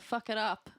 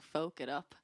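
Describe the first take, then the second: First: The first word has a short vowel, like 'fuck'. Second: The first word has a long vowel, like 'folk'. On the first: It accidentally sounds like a swear word. "basically said it like that" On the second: It refers to folk music as intended. "meaning to say like "folk it up.""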